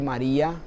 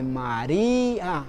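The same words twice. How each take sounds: First: Said in the usual way. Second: "María" very slow, with a long stressed í apart from the a; separate-syllable hiatus. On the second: Shown as a demonstration. Teacher demonstrates the hiatus to students, "María" drawn out on the í. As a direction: stretch the í in "María" into its own syllable. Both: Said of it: "se produce una sílaba aparte".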